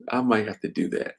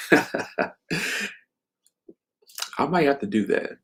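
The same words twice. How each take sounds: First: Said in the usual way. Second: Amused musing. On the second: Real, not acted. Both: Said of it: "turn this into a book".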